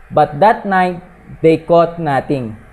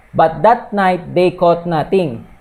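Both takes have the same delivery.

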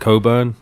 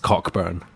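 First: The name is said without a k sound. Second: The name is said with a clear k sound. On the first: This is the usual way to say the name. "you would pronounce it like Coburn" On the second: The name is overpronounced on purpose for a joke. "the name is overly pronounced on purpose"

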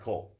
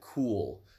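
First: The vowel is short, like in dull. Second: The vowel is long, like in pool. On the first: The speaker calls it right. "Okay, sorry, coal" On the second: The speaker calls it wrong. "It's not cool"

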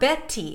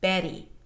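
First: The middle consonant is a crisp, true T. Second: The middle consonant is a very light tap. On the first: The speaker calls it wrong. "It's not a regular true T" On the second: The speaker calls it right. "It is a very, very light D"

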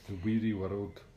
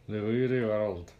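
First: It is spoken with normal lip movement. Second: It is spoken without moving the lips.

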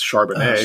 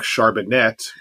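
First: The name is said in a French accent. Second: The name is said in a plain American accent.

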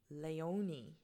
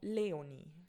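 First: The name is said with American English sounds. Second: The name is said with Swiss German sounds. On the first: The speaker calls it wrong. "mein Mann ist Amerikaner und er würde Leonie sagen" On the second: The speaker calls it right. "mir gefällt einfach der Klang von Leonie"

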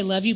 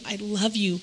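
First: It is said casually, without much feeling. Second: It is said with deep, intense feeling.

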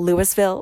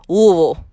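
First: Every syllable is pronounced clearly as spelled. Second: The syllables are mushed together with little tongue movement. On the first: "It's spelled Louisville" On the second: "just mush all of the letters together and don't move your tongue"

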